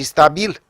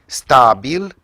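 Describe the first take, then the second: First: "stabil" stressed on the last syllable, sta-BIL; "stabil" as sta-BIL, pitched higher; second stress variant. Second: "stabil" stressed on the first syllable, STA-bil; "stabil" as STA-bil, rising at the end; first stress variant. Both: Shown as a demonstration. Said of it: "Sunt două cuvinte diferite".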